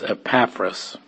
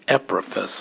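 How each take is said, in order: First: The stress is on the second syllable. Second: The stress is on the first syllable. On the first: This is the Greek way of saying the name. "But Greek, it's Epaphras" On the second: This is the English way of saying the name. "In English, we accent the first syllable. So we would want to say Epaphras"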